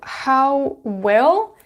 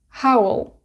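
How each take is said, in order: First: The word will is said in full. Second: Will is contracted and joined onto how. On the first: "So how will becomes howl" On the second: "becomes howl"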